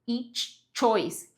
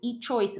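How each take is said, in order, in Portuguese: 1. O som ch é pronunciado duas vezes seguidas. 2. O som ch é pronunciado apenas uma vez. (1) "você tem que fazer esse ch duas vezes seguidas" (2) "Tem gente que tem a tendência de falar each choice"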